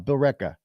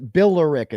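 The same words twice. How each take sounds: First: It is pronounced unlike its written form. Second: It is pronounced the way it looks. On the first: The speaker calls it right. "Billerica, Billerica" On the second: The speaker calls it wrong. "it says Billerica. No, no"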